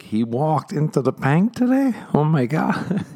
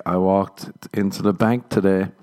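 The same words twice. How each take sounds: First: High-pitched mock-incredulous repeat. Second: Said in the usual way. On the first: Woman in crowd repeats the comedian's line, incredulous. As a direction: imitate an astonished audience member, voice shooting up. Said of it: "just repeating stuff, like, incredulously". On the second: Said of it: "I'd say something like".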